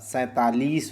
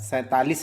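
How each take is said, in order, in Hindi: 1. आखिरी अक्षर की मात्रा बड़ी है। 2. आखिरी अक्षर की मात्रा छोटी है। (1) "सैंतालीस होता है" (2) "सैंतालीस नहीं होता"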